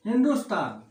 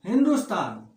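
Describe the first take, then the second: No difference in how they are said.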